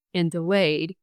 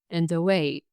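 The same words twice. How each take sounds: The two takes are said the same way.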